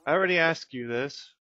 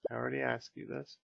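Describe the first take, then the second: First: A mild grumpy bear; voicing the bear. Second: Said in the usual way. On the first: The bear complaining to the player, louder.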